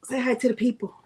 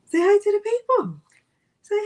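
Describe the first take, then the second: First: Said in the usual way. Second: Much higher, louder sing-song to the pet; high coaxing voice. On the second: Shown as a demonstration. Host to her dog Milo, high coaxing baby talk.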